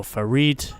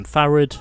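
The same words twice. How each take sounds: First: "Farid" stressed on the second syllable; alternative pronunciation. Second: "Farid" stressed on the first syllable; first pronunciation. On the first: Trying another pronunciation of a racer's name, "Farid" as fa-REED. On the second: Offering one pronunciation of a racer's name, "Farid" as FA-rid. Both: Shown as a demonstration. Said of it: "I think it's pronounced Farid".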